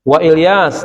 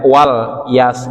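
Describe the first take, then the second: First: A glottal stop separates wa from Ilyas. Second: Wa runs straight into lyas without a stop. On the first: The speaker calls it right. "dibaca dengan hamzah qata'" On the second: The speaker calls it wrong. "Jangan dibaca wal yas gitu misalnya"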